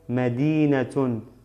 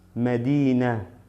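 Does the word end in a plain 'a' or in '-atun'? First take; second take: -atun; plain a. First: The word ends with an added 'tun' sound. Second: The word ends in a plain 'a' sound. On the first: The word is read with its full case ending. "Si pronuncio doble dama sería Medinatun" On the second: The word stands before a pause. "¿Por qué digo solamente Medina y no Medinatun? Por el paro que tengo aquí, por la pausa"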